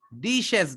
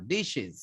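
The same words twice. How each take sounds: First: dishes with a hard "es"; dishes ending sharp s; wrong ending. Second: dishes ending in "iz"; dishes with a soft buzzing z; correct ending. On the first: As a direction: say dishes as "dish-es", hissed. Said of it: "dishes না". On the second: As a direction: say dishes as "dish-iz", light i. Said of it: "একটু হালকা ই এর মতো উচ্চারণ হবে". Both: Shown as a demonstration.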